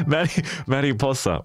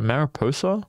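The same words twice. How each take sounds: First: Mariposa as "mah-ree-POH-sa", after a false start; corrected pronunciation. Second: Mariposa as an unsure "mair-a-POH-so", rising; unsure pronunciation. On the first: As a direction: carefully repeat mariposa with a tapped r. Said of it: "I got it". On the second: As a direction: try Mariposa with English vowels, questioning. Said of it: "how did I pronounce that word?". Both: Shown as a demonstration.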